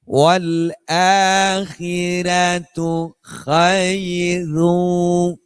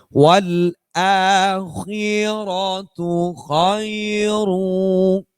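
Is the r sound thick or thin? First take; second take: thin; thick. First: The r sounds are pronounced thin and light. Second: The r sounds are pronounced thick and full. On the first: This follows a different recitation tradition. "Ini semuanya dibaca tipis" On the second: This follows the recitation tradition being studied. "kalau Imam Hashim yang kita sedang pelajari"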